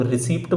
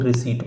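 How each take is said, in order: First: "रिसीप्ट" with an audible p before the final t; receipt with P sounded. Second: "रिसीट" with no p, ending in a long ee and t; receipt with silent P. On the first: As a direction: pronounce the p in "रिसीप्ट". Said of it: "कुछ लोग रिसीप्ट बोलते हैं". ("रिसीप्ट" में ट से पहले प की आवाज़ के साथ) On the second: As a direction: drop the p in "रिसीट". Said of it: "actual में रिसीट होता है". ("रिसीट" में प बिल्कुल नहीं, सीधे ट) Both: Shown as a demonstration.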